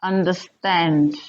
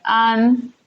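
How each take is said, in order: First: Said in the usual way. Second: "understand" in three separate beats, UN, DER, STAND; syllable by syllable. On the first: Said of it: "Another example would be understand". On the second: Shown as a demonstration. Teacher counting three syllables for learners, "understand" syllable by syllable. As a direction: pause between each syllable of "understand". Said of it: "Three syllables".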